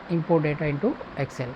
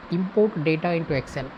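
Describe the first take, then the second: No difference in how they are said.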